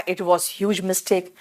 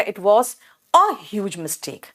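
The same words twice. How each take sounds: First: Said in the usual way. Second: Slow correction with "a" set apart and stressed. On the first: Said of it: "विकास ने कहा". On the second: Shown as a demonstration. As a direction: lean on the word "a", drawing the sentence out. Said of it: "तब तो आपको कहना पड़ेगा". ("a" पर ज़ोर देकर, धीरे-धीरे)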